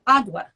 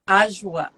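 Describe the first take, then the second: First: The middle sound is a clear D. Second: The middle sound is soft, without a clear D. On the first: This is how Americans say it. "We pronounce the D" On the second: This is how people from the region say it. "Apparently, it's Ajwa"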